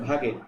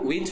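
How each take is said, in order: First: The name is said as two syllables, 'vahgeh'. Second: The name is said as one syllable, 'wayj'. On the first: The speaker calls it right. "উচ্চারণটা হচ্ছে ভাগে" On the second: The speaker calls it wrong. "তা আসলে কিন্তু ওটা ওয়েজ হবে না"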